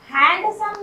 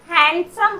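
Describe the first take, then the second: First: "हैंडसम" with an audible D before the S; "हैंडसम" mispronounced with D sounded. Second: "हैंडसम" with no D before the S; "हैंडसम" with the D left silent. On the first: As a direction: say "हैंडसम" as hand-sum, voicing the D. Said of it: "नहीं बोलते हम लोग". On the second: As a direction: say "हैंडसम" as han-sum. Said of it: "हैंडसम बोलते हैं". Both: Shown as a demonstration.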